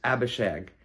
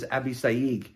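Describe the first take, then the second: First: The name is said in an English way. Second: The name is said in a Hebrew way. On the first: The speaker calls it wrong. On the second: The speaker calls it right.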